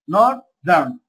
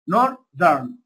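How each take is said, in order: No difference in how they are said.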